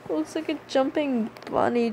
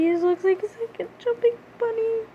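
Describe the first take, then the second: First: Said in the usual way. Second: High squeal. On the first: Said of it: "repeats own line calmer". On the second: Shown as a demonstration.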